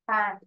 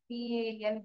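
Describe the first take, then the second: First: It is said as a single word. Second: It is spelled out letter by letter. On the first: The speaker calls it right. "எப்படி பேனை நம்ம உச்சரிக்கிறோம்" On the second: The speaker calls it wrong. "பிஏஎன் அப்படின்னு சொல்றோமா? இல்ல"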